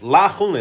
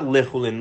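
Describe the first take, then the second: First: The first vowel is an open 'a' sound. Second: The first vowel is a short reduced 'e' sound. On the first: It should not be ordinary food. "he said lachulin with a patach under it" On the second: It is going to be ordinary food. "not lechulin"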